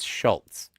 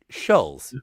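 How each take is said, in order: First: A t sound is heard before the z. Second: No t sound is heard before the z. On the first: The speaker calls it wrong. "it's not Charles Schultz" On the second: The speaker calls it right. "There is no T"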